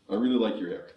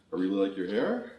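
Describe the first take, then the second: First: "I really like your hair" stressing "really" and falling firmly on "hair"; falling statement tune. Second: "I really like your hair" with the voice rising on "hair" like a question; rising question tune. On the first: Workshop leader demos the compliment said as a firm statement. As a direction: land "hair" down, confident. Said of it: "when you say a statement". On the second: Workshop leader demos the Canadian uptalk on a compliment. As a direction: end "hair" going up, unsure. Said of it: "when our statements sound like this". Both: Shown as a demonstration.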